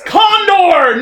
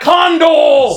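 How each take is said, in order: First: The word ends with an R sound. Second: The word ends with an L sound. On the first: The speaker calls it right. "It's Condor" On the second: The speaker calls it wrong. "not Condol!"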